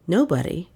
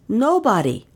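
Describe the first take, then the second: First: Said in the usual way. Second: High, falling servant voice; a short flat "Nobody." in Billy's high voice; flat report. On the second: Acted. Billy closing his report to his mistress, high and flat.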